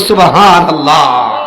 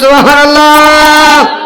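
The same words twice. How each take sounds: First: It is said at a normal, softer volume. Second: It is said louder than before.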